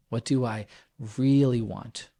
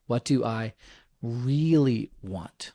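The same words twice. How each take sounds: First: «really» lightly stressed, at normal pace; a quick nudge on «really». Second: «really want» drawn out slowly, each word leaned on; stress on really want. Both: Shown as a demonstration. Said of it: "I want to emphasize these two words".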